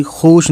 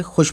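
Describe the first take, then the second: First: "खुश" drawn out as khoosh; wrong long vowel. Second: "खुश" said softer with short u, khush; short vowel. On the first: Teacher showing what not to read, long vowel. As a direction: lengthen the u in खुश to show the misreading. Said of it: "खुश नहीं पढ़ेंगे". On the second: Teacher showing how it is read, short vowel. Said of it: "खुश पढ़ेंगे". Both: Shown as a demonstration.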